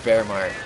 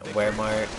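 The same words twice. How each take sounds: First: The word begins with a V sound. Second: The word begins with a W sound.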